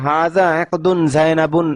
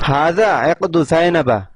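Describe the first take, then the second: First: The words end with a final n sound. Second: The words end without a final n sound. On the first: The speaker calls it wrong. "অনেকে ভুল ক্রমে এখানে এসে পড়ে" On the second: The speaker calls it right. "ইহা জায়নাবের হার"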